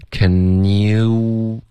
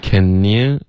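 First: "Can you" with "you" drawn out into pouted oo; lip-rounded glide. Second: "Can you" glided by the tongue, lips unrounded; wrong tongue glide. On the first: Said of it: "可是要用嘴唇". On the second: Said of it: "你是靠舌头". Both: Shown as a demonstration.

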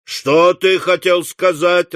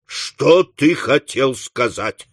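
First: Slow, higher raised-voice question; higher, drawn-out demand; clamouring question. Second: Slow, heavy question at normal pitch; deliberate, insistent questioning; stern demand. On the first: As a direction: call the question out like several onlookers. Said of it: "раздались голоса". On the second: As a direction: space the words out, shaking it from him. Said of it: "встряхнув его". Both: Acted.

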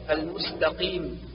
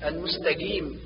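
First: المستقيم with deep back q; true qaf. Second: المستقيم with g-like sound for ق; between qaf and kaf. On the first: Teacher corrects, المستقيم with pure q. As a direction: make a full ق in المستقيم. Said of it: "والصواب". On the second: Teacher shows the error, المستقيم with in-between g-like consonant. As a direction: soften the ق of المستقيم halfway to k. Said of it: "حرفا ما بين القاف والكاف". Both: Shown as a demonstration.

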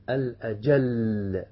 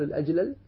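First: الأجل with the lams merged into one doubled lam, drawn out slowly. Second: الأجلل with both lams split apart; unmerged double lam. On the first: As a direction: say الأجل as al-ajall, one long stressed lam. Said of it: "بإدغام اللام في اللام". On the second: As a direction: say الأجلل as al-ajlal, the two lams separate. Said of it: "لا أحد يقول الأجلل". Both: Shown as a demonstration.

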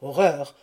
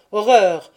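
First: Cry of horror. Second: Horror cried out much louder and higher; anguished cry. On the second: Husband learning the truth, crying out in horror. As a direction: wail it out in horror. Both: A narrator's reading. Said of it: "M'écriai-je".

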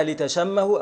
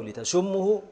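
First: لتشمه said "li-tashammahu". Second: لتشمه said "li-tashummahu". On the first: Teacher reading out both allowed readings, لتشمه with a. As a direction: put a short a on the sh of لتشمه. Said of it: "يبقى المضارع يشم". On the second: Teacher reading out both allowed readings, لتشمه with u. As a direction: put a short u on the sh of لتشمه. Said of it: "في الإدغام يشم". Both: Shown as a demonstration.

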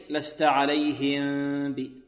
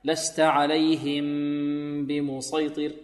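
First: عليهم ب said with the lips opening before the باء; lips parted wrongly. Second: Slow chanted عليهم بمسيطر, lips sealed through the ميم into باء; lips pressed together. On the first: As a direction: let the lips part on عليهم ب. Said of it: "لا، بل لابد من إلصاق الشفتين". (إفراج الشفتين خطأ) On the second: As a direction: chant it with the lips held closed. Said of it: "هكذا". (إطباق الشفتين مع الغنة) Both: Shown as a demonstration.

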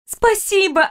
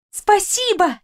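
First: High, bright joyful thanks; excited thanks. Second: High, delighted repeat of thanks; even more excited thanks. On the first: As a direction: thank her, overjoyed. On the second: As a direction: thank her again, overjoyed. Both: Acted. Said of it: "вспорхнула с кровати и закружилась".

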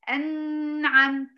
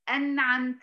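First: "أنعمت" higher, with a long nasal hum on ن; extra ghunna. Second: Said in the usual way. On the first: Shown as a demonstration. Teacher showing what to avoid, "أنعمت" with excess ghunna. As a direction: draw out the ن of "أنعمت" through the nose. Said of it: "ما أعملش فيها غنة". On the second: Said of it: "بدون غنة زائدة".

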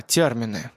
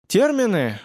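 First: Low, falling, as it dawns on him; realizing. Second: High, puzzled one-word question; surprised echo. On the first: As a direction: say it like you finally get it. Семён recalls the word. (с пониманием, спокойно) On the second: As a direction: repeat it, caught off guard. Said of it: "удивился Семён". (удивлённо, переспрашивая) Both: A narrator's reading.

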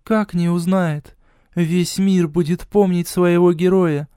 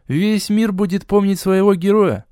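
First: Higher, slow, inspired goddess; enthusiastic. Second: Higher mocking echo of her. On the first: A narrator's reading. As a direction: rouse him with zeal. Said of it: "с воодушевлением произнесла Хель". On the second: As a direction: parrot her words with scorn. Hero mocks goddess's words.

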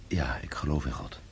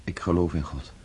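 First: Softer, whispered "Ja, ik geloof in God" as a private vow; whispered affirmation. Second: Said in the usual way. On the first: Acted. Pierre answering the mason, whispering his faith to himself. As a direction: breathe the words out as a whisper.

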